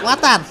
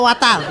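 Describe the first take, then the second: First: The middle consonant is a t against the teeth. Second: The same.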